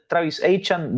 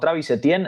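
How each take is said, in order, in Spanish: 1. El apellido se dice como 'Achan'. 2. El apellido se dice de la forma conocida, 'Etienne'. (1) "dicho por él mismo" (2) "a quien conocíamos como"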